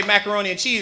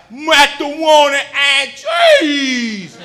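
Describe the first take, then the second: First: Said in the usual way. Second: "macaroni and cheese" said as "matawoni and cheese", loud and slow; speech-impaired kid. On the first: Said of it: "your kid will say". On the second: Retold or imitated. Kid mangling "macaroni and cheese" in Chicago. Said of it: "it sound like".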